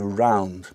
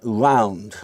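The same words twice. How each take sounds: First: The R is a standard English R. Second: The R is a distinct, Yiddish-style R. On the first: This is the speaker's own usual pronunciation. "I would say round" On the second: "many people in England who say something like round"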